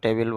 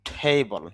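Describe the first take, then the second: First: It is said with a Bengali pronunciation. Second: It is said with an English pronunciation. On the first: "Bangla যদি উচ্চারণ করেন টেবিল বলতে পারেন" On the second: "টেবল English sound"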